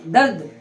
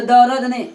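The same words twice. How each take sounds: First: दर्द said as one syllable, dard, r kept silent; the right way, dard; correct dard. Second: दर्द said as darad with an extra vowel; the wrong way, darad. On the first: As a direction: close दर्द tight with no vowel between r and d. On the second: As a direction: split दर्द into two syllables. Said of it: "दर्द नहीं बोलेंगे". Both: Shown as a demonstration.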